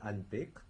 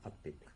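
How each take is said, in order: First: An n sound is heard before the p. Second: The n is replaced by a doubled p. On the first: The speaker calls it wrong. "Au lieu d'avoir par exemple" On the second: The speaker calls it right. "on aura"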